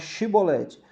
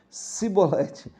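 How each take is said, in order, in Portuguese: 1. A palavra começa com o som de 'sh'. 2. A palavra começa com o som de 's'. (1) "fala Chibolete" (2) "eles falavam Cibolete"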